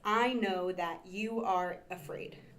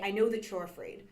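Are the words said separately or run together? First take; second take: separately; run together. First: Each word is said fully and separately. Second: The words are contracted and run together. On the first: "word for word" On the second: "more naturally"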